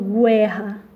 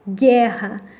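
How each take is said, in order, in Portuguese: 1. Ouve-se um som de U depois do G. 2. Nenhum som de U é ouvido depois do G. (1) "nós não estamos falando guerra" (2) "nós estamos falando gué, guerra"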